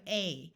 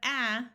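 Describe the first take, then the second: First: The vowel sounds like the a in ate. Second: The vowel sounds like the a in at. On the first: "the long A sound of" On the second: "instead of"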